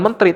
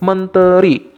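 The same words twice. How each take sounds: First: The middle vowel is dropped. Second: The middle vowel is pronounced. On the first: The speaker calls it wrong. "bukan menteri" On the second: The speaker calls it right. "kaidah E di tengah-tengah itu tetap ber, berpengaruh"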